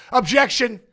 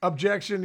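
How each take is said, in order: First: Mock lawyer objection. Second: Said in the usual way.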